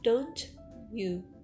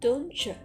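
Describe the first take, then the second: First: The t and y are said as separate sounds. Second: The t and y blend into one sound. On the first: The speaker calls it wrong. "not don't you" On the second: The speaker calls it right. "two sounds blend with each other and become one sound"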